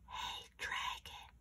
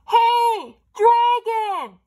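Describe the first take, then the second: First: It is whispered very softly. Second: It is shouted very loudly.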